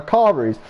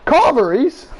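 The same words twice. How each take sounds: First: Said in the usual way. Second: High, incredulous echo on CARVERIES; mock disbelief. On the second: Friend questions ordering carveries, incredulous CARVERIES.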